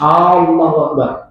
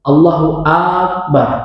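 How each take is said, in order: First: The first A of Allah is held long. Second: The first A of Akbar is held long. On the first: "Alif lam pada kata Allahnya dipanjangkan" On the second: "huruf hamzah dalam kalimat atau kata akbar itu yang dipanjangkan"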